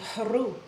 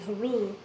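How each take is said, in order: First: The h is forceful and comes from deep down. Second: The h is weak and shallow in the throat. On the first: The speaker calls it right. "the h forceful sound coming up" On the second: The speaker calls it wrong. "It's not pulling up the sound fully"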